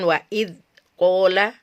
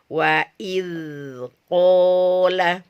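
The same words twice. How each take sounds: First: The dh sound is held back and stopped short. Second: The dh sound flows on smoothly into the next. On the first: The speaker calls it wrong. "nanti jadi siddah" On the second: The speaker calls it right. "suaranya harus dialirkan"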